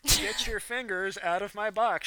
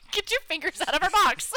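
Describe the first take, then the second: First: Slow, louder mocking repeat; mock her scolding line slowly; mocking imitation. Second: Higher, scolding command. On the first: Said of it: "she said". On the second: Real, not acted. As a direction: shoo them off sharply. Scolding an intruder.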